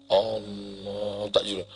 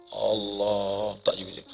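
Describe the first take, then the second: Both takes have the same delivery.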